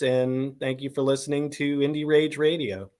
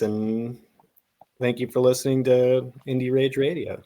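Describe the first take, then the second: First: It is said with more enthusiasm. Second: It is said with little enthusiasm.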